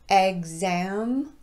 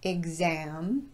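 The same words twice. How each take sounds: First: The first vowel is a short E sound. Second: The first vowel is a short I sound. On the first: "pronounced with a short E" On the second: "or a short I sound"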